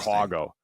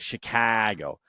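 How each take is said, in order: First: The middle vowel is an 'aw' sound. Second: The middle vowel is a drawn-out A. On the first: Said the way real locals say it. "It's an awe" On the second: Said by someone long away from the city. "lengthen out the A"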